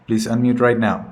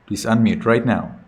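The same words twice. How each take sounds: The two takes are said the same way.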